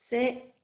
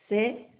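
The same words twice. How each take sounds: Both takes have the same delivery.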